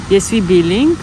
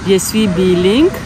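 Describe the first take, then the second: No difference in how they are said.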